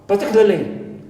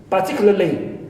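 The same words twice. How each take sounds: The two takes are said the same way.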